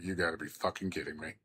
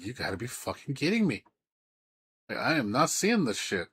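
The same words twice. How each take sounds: First: Low, quiet and fast; quick low mutter of disbelief. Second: Higher, outraged disbelief; half-hearted outraged retelling. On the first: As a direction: mutter it under your breath, stunned. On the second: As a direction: push it up in mock outrage. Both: Retold or imitated. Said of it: "I was like".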